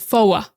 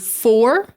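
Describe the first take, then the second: First: It has a Boston accent with the r dropped. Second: It has a standard American accent with a clear r. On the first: "she says foa" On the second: "instead of saying the word for"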